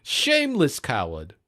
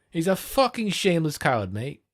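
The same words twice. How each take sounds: First: Said in the usual way. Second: Overemphasised British. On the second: Shown as a demonstration. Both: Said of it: "Yeah, that sounds better".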